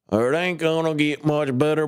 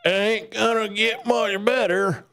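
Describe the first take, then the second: First: A bit higher, toned-down mock yokel voice; milder mock yokel grumbling; lighter put-on yokel voice. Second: Much higher, hammed-up country yokel voice; high mock yokel grumbling; put-on yokel voice. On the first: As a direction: ease off the silly yokel voice, keep a hint of it. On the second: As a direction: lay on a silly yokel voice for "ain't gonna". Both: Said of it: "I don't know why I'm talking like this".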